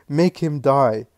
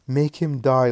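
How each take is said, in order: First: Slow, louder and higher, each word weighted; grieving mother's last plea to the Lord; desperate final plea. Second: Raised, pleading plea; mother begging the Lord for mercy. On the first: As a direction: drag it out like a last desperate prayer. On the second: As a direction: beg for an end, voice raised. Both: A narrator's reading. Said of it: "He lives in agitation".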